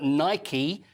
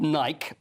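First: The word ends with a pronounced final vowel. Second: The word ends without a final vowel sound. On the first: This is how the name of the goddess is said. The speaker calls it right. "but Nike, who is the Greek god of victory. So that's the pronunciation" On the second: This is the common everyday way of saying it. The speaker calls it wrong. "Often called Nike"

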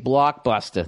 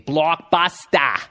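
First: It is said in a Boston accent. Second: It is said in a stretched Australian accent.

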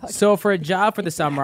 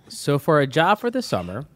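First: It is read at a normal, quick pace. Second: It is read at a slower pace.

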